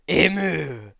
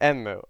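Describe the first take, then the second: First: The name is said without an n sound. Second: The name is said with an n sound. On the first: The speaker calls it wrong. "Why do I keep saying Emu?" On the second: The speaker calls it right.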